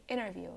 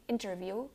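First: "interview" like "innerview"; silent T. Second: "interview" with a clear T after N; T sounded. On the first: Teacher showing American English, "interview" with silent T. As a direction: drop the T in "interview", keep the N. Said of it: "the T is silent". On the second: Teacher showing the wrong way, "interview" with full T. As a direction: release the T in "interview". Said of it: "you don't say interview". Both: Shown as a demonstration.

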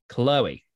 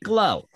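First: Said in the usual way. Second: Put-on Chloe in a Brooklyn accent, pitched up; a quick Brooklyn twang on Chloe. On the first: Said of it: "how I like to say to you". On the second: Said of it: "I love doing the Brooklyn accent".

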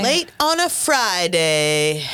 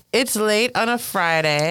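First: Slow drawn-out echo of the sign-off; mock announcer echo. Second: Sign-off voice. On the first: Cohost echoing the sign-off in a slow mock host voice. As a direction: stretch it out like a late-night host. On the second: Acted. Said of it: "So we're gonna wrap it up".

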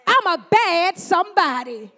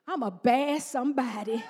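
First: Bold declaration. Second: Low, laughing "I'm a bad somebody"; laughing declaration. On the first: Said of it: "I'm telling you, God said". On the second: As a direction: say it with a playful grin. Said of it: "this is what I want you to say". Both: Shown as a demonstration.

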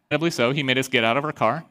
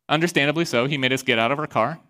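No difference in how they are said.

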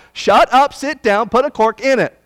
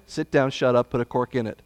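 First: "Shut up, sit down" shouted higher and louder; emphatic command. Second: "sit down, shut up" said lower and softer, almost under the breath; understated command. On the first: Preacher ordering the prophet off the stage, loud emphatic. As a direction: hammer each command home, loud. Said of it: "why I'm emphasizing it that way". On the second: Preacher repeating the command to the congregation, low and quiet. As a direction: let the command sink in quietly. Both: Acted.

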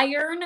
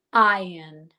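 First: IRON as "EYE-ern", with a sounded American R; American pronunciation. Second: IRON as "EYE-un", R left silent; British pronunciation. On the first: Teacher comparing American with UK, IRON with R. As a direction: say "iron" the American way, R after the vowel. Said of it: "in American English". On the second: Teacher showing UK version, IRON with no R. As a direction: say "iron" slowly the UK way, without the R. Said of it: "in U K, you would say". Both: Shown as a demonstration.

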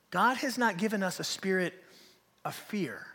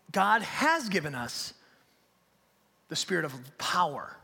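First: Said in the usual way. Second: "has" leaned on, slowly and deliberately; stress on "has". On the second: Real, not acted. Preacher contrasting what God gave, slow weight on "has". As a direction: land on "has", then pause before the rest. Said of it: "it's almost like in contrast".

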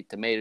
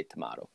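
First: "tomato" with a long AY in the middle; the tuh-MAY-toe pronunciation of "tomato"; tomato as tomayto. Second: "tomato" with an open AH in the middle; the tuh-MAH-toe pronunciation of "tomato"; tomato as tomahto. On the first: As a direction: say "tomato" to rhyme with potato. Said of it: "you say tomato". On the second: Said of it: "I say tomato". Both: Shown as a demonstration.

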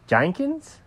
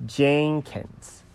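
First: "Jenkins" with the first vowel off, like "Jankins", rising; mispronounced name. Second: "Jenkins" sounded out with an E first, I near the end; corrected name. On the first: Clerk checks the cat's spelling, saying "Jenkins" as a questioning "Jankins?". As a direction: query "Jenkins" as a misheard "Jankins?". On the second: Cat corrects the clerk, saying "Jenkins" carefully with a clear E. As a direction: carefully say "Jenkins" as JEN-kins. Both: Acted. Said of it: "An E near the beginning".

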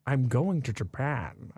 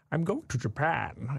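First: Slow Scottish-tinged Sean Connery voice, "Japan" with a "sh" sound; running joke in a lazy Sean Connery voice; Sean Connery impression. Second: Slow, lightly Scottish Sean Connery voice; a half-hearted Sean Connery drawl; Sean Connery impression. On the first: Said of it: "we go". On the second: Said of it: "I tried to do, like, a Sean Connery impression".

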